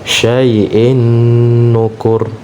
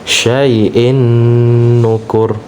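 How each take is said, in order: No difference in how they are said.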